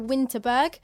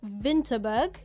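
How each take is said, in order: First: The first letter is said as a W. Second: The first letter is said as a V. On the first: "we went to Winterberg" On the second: "you pronounce it as Winterberg"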